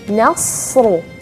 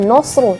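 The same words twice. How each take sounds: First: The n sounds light and thin. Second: The n sounds heavy and thick. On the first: The speaker calls it right. "tapi nasru. Nasru tetap huruf nun tipis" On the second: The speaker calls it wrong. "jangan nasru"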